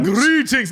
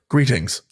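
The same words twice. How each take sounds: First: It is said in a silly, playful voice. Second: It is said in a plain, flat, serious voice. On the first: The speaker calls it wrong. "Not like goofy, like greetings. Not like that" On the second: The speaker calls it right. "but literally just like greetings"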